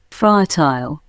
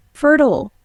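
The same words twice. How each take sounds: First: British accent "Fertile" as FUH-tile, long I; British accent: end "Fertile" with "tile"; British accent demo. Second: "Fertile" as American FUR-tl, weak second syllable; American accent: "Fertile" rhymes with "turtle"; American accent demo. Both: Shown as a demonstration. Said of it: "Pronunciation of particular words".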